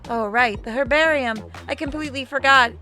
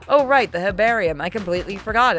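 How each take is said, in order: First: It is said in a put-on character voice. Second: It is said in the speaker's natural voice.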